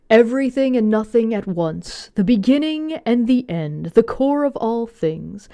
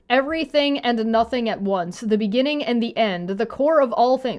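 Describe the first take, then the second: First: It is read in a put-on dramatic voice. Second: It is read in a plain voice.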